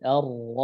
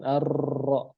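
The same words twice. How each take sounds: First: The r is trilled lightly with reduced vibration. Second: The r is trilled strongly with many vibrations. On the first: The speaker calls it right. "tapi ar-ra" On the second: The speaker calls it wrong. "bukan ar-ra"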